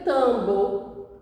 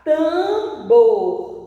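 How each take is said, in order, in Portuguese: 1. A palavra termina em vogal, sem R. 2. A palavra termina com som de R. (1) "mas a palavra está escrita" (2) "Quando eu colocar o R, a palavra vai ficar"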